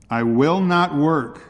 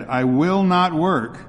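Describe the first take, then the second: First: Drawn-out, raised desperate refusal; a slow, louder plea of defiance; desperate cry. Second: Slow, high, louder shouted refusal; crying out at top of voice. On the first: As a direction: slave refusing at auction, crying out in desperation. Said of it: "cried Joe in desperation". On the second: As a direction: stretch it out and shout it higher. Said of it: "cried Joe at the top of his voice". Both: Acted.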